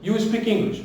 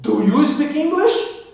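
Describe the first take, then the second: First: "You speak English" said as a plain statement; no questioning lift on "English"; affirmative sentence tune. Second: "Do you speak English?" high, loud and slow, rising on "English"; question intonation. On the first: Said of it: "aqui é uma frase afirmativa". ("You speak English" em tom de afirmação) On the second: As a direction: lift "English" sharply into a question. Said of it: "virou pergunta no presente". ("Do you speak English?" em tom de pergunta, subindo no final) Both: Shown as a demonstration.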